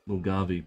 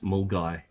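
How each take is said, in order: First: The name is said with a 'v' sound. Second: The name is said without a 'v' sound. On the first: The speaker calls it wrong. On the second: The speaker calls it right.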